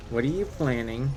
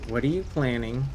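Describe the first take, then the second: No difference in how they are said.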